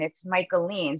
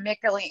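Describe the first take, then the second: First: The first part sounds like Michael. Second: The first part does not sound like Michael. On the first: The speaker calls it right. "like Michael" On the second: The speaker calls it wrong. "everyone calling me a wide range of"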